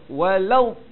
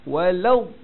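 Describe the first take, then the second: No difference in how they are said.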